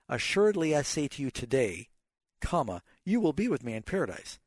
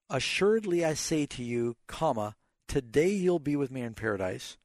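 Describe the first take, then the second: First: The pause comes after the word today. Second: The pause comes before the word today.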